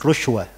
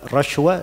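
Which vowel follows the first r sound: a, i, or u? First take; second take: u; a. First: The first vowel is a u sound. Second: The first vowel is an a sound. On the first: "dan rushwa. Tiga harokat pada ra"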